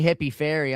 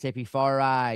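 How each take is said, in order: First: The name ends with a short 'ee' sound. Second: The name ends with a long 'eye' sound. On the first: The speaker calls it wrong. "people call me Hippie Fairy" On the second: The speaker calls it right. "The I it's the I is long"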